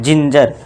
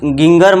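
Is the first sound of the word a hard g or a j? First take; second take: j; hard g. First: The word begins with a soft j sound. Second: The word begins with a hard g sound. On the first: The speaker calls it right. "जा का sound करना है, ना कि गा का" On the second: The speaker calls it wrong. "अब इसे गिंगर मत पढ़ना"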